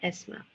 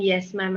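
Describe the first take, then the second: First: Yes sounds like the letter S. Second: Yes begins with a clear y sound. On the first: The speaker calls it wrong. "we're saying it as S ma'am" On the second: The speaker calls it right. "the correct pronunciation is yes ma'am"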